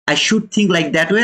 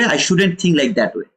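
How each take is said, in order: First: Ends on a rising "way"; the mistaken thought, lifted at the end; wrong version. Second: "shouldn't" leaned on, falling to the end; corrected version. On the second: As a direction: fix the thought, firm fall. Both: Retold or imitated. Quoted apology, self-correction.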